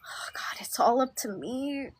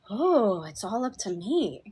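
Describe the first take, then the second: First: It is said in a scared, anxious way. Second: It is said in a relaxed, light way.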